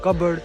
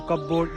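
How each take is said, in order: First: It is reduced to 'cubberd' with no 'p' sound. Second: Both parts 'cup' and 'board' are fully pronounced. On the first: The speaker calls it right. "It's" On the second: The speaker calls it wrong. "It's not"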